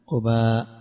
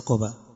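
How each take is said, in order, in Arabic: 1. تُمدّ الحركة الأخيرة قبل الانتهاء. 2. الحركة الأخيرة قصيرة دون مدّ. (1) "فالصحيح المشهور فيه المد قباء" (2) "وليس قباء"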